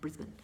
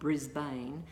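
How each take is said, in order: First: Pronounced the local Australian way. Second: Pronounced the way the spelling looks. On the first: This is how Australians say it. "we call it Melbourne and Brisbane" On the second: This is how it looks written down. "it looks like on paper Brisbane"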